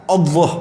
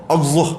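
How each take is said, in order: The two takes are said the same way.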